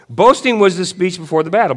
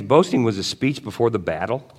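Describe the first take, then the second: First: Loud, high-pitched proclamation; worked-up declaration. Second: Said in the usual way. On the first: Real, not acted. Preacher restarts his point about battle boasts, worked up and loud. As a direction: belt it out as a battle announcement.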